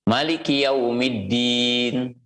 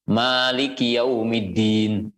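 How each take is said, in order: First: The vowel after the m is short. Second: The vowel after the m is long. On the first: "seperti bacaan" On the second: "Juga boleh dibaca dengan panjang"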